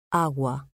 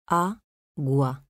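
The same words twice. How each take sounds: First: Said in the usual way. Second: "Agua" split as A, gua, pause between; syllable by syllable. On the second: Shown as a demonstration. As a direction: say "Agua" in two separate pieces, A... gua. ("Agua" separado en sílabas: a, gua) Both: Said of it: "Separación de sílabas".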